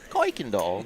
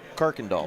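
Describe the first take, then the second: First: The first syllable has no R sound. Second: The first syllable has a clear R sound. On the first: This is how the written spelling looks. "it looks like Koiken. Koikendall. There's no R" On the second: This is how the name is actually said. "But you got to say it with a hard R"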